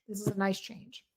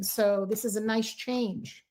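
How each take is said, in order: First: Quieter, to herself; softer repeat. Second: A slow, savoured remark; slow and pleased. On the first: Reader softly repeats the good news to Capricorns. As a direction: echo it softly, a gentle afterthought. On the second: Reader slowly tells Capricorns this week brings relief. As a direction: let it land slowly, pleased for them. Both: Real, not acted.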